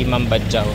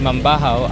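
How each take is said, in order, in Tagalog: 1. Ang gitnang katinig ay matigas na tunog j. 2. Ang gitnang katinig ay malambot na tunog h. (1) "hindi Mambadjaw" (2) "ang J sa Bisaya ay silent or letter H"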